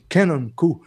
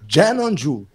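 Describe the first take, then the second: First: The name starts with a hard k sound. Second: The name starts with a soft j sound. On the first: This is how it used to be said locally. "a gente chamava de Canon Ku" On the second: This is how the person himself says it. "Ele falou Janon Ju"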